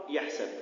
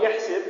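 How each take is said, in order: First: يحسب ending in sab; fatha on the sin. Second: يحسب ending in sib; kasra on the sin. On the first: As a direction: say يحسب as yahsab, with an a in the last syllable. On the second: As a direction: say يحسب as yahsib, with an i in the last syllable. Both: Shown as a demonstration. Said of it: "والقراءتان المعروفتان".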